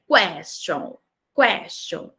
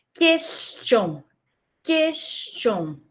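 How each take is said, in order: First: "question" starting kw, as kwes-chon; English pronunciation. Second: "Question" starting with a plain k, kes-tion, no w; slow, careful "Question" opening on ke; French pronunciation. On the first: Teacher contrasting it with French, English pronunciation. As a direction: glide through a w after the k in "question". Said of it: "Essa primeira pronúncia é do inglês". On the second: Teacher modelling the French word, French pronunciation. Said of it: "como se fosse um som de que". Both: Shown as a demonstration.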